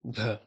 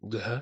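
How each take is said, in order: First: The g and breath form one sound. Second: A g is followed by a separate h. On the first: The speaker calls it right. "It should be one sound" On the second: The speaker calls it wrong. "a G and an H pronounced after one another"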